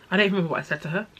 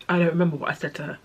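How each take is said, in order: Both takes have the same delivery.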